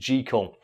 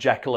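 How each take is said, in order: First: The name rhymes with treacle. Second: The name does not rhyme with treacle. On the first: The speaker calls it right. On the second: The speaker calls it wrong.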